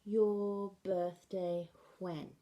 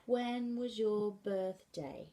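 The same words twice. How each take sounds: First: Slow, when placed last; BSL word order. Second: Slow, when first; English word order. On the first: Teacher giving BSL when question, when last. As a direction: finish on when. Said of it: "In B S L". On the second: Teacher giving English when question slowly. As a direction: start with when. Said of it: "In English". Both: Shown as a demonstration.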